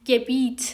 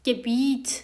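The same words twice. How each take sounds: Both takes have the same delivery.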